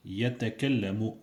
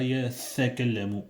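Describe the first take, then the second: First: "يتكلم" with a clean t; "يتكلم" said carefully; correct t. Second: "يتكلم" with a th instead of t; "يتكلم" lisped with a th; wrong th. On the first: Teacher models "يتكلم" for listening students. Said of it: "Écoutez bien". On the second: Teacher showing the mistaken "يتكلم". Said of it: "c'est pas". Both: Shown as a demonstration.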